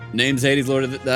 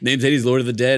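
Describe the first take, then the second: First: It is said in a Skeletor voice. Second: It is said in an announcer voice.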